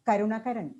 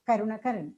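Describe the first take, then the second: Both takes have the same delivery.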